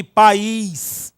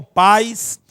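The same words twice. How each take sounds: First: "país" in two syllables, strong drawn-out I; stressed I in país. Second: "pais" as one syllable, stress on A, weak gliding I. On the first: Teacher contrasting word pairs for students, stressed I in "país". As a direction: hit the I of "país" hard, pa-ÍS. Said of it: "o I está sendo fortemente pronunciado". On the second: Teacher contrasting word pairs for students, weak I in "pais". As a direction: say "pais" with a strong A sliding into a weak I. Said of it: "uma vogal, uma sílaba". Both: Shown as a demonstration.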